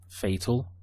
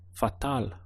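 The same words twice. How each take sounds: First: It is said with an English pronunciation. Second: It is said with a Spanish pronunciation.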